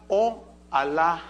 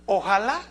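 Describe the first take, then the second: First: "Oh Alá" slowly, as two separate words; split into words. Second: Said in the usual way. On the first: Shown as a demonstration. Preacher showing the Arabic root, "Oh Alá" pulled apart slowly. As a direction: break it apart: "Oh", then "Alá". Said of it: "que significa". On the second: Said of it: "tiene una raíz árabe".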